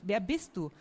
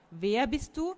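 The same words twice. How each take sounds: First: Said in the usual way. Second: "Wer bist du" lifted, with a rising end on "du"; insistent question. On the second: A narrator's reading. Sophie wants no riddles, "Wer bist du" asked insistently, rising. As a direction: press "Wer bist du", pitch climbing through "du". Asks again, tired of riddles.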